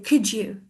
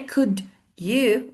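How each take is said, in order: First: The words blend into a 'couldja' sound, US-style. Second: The two words are said separately and carefully.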